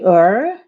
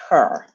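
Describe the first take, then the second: First: The word starts without an h sound. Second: The word starts with a clear h sound. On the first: The speaker calls it wrong. "No, we don't say er" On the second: The speaker calls it right. "We say her. If it's a she, we always pronounce the H"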